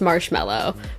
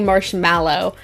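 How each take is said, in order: First: The word is said in its usual relaxed way. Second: Every letter is pronounced in an exaggerated way. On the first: "I know that's marshmallow" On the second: "I feel the need to overly pronounce it"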